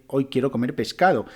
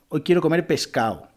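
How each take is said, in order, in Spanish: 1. La d entre vocales en pescado se pronuncia. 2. La d entre vocales en pescado se elide. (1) "Debería decir" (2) "esa pérdida de la D"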